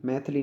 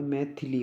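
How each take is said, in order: First: मैथिली with the middle vowel dropped, "maith-li"; wrong pronunciation. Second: मैथिली with a short middle i, "mai-thi-li"; correct pronunciation. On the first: Teacher shows students the mistake, मैथिली squeezed to "maith-li". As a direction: say मैथिली in two beats, maith-li. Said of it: "नहीं होता भाई". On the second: Teacher gives students the right form, मैथिली as "mai-thi-li". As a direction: sound all three syllables of मैथिली. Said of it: "होता है". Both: Shown as a demonstration.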